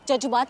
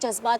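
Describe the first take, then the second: First: The word is said with a 'j' sound. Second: The word is said with a 'z' sound. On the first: The speaker calls it wrong. "आप नुक्ता लगाना भूल गई" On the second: The speaker calls it right. "नुक्ता"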